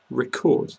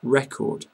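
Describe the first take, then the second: First: Record stressed on the second syllable, ri-CORD; Record with the weight on the end, ri-CORD; Record as in to tape, ri-CORD; record verb. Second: Record stressed on the first syllable, REK-ord; Record with a short open e up front, REK-ord; Record as in world best, REK-ord; record noun. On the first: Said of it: "A program, for example". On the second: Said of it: "as in world record". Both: Shown as a demonstration.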